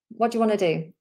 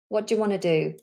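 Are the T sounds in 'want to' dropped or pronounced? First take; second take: dropped; dropped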